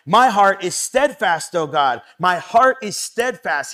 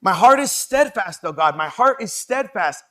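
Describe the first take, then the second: First: Louder and slow, stressing "heart"; emphatic slow declaration. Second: Higher and louder, leaning on "heart"; emphatic declaration. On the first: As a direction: declare "My heart is steadfast" deliberately. Reading psalm, repeated line. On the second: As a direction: declare "My heart is steadfast" with conviction. Repeats for emphasis. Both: Acted.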